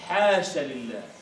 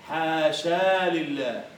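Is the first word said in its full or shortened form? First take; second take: shortened; full. First: The first word is said in a shortened form. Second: The first word is said in its full form. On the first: This is the lightened form used in practice. "فخففوها" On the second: This is the original form of the word. "المفروض أن تقول حاشا لله"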